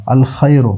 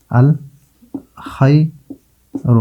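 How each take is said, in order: First: Said in the usual way. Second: الخیر very slowly, as "al... khay... ru"; syllable-by-syllable pronunciation. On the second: Shown as a demonstration. Teacher showing lam before kha, slow syllable-by-syllable الخیر. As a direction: break الخیر into pieces with long pauses, lam sounded. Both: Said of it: "لام کا تلفظ ہوتا ہے".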